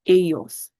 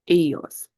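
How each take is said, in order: First: The double L sounds like an English Y. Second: The same.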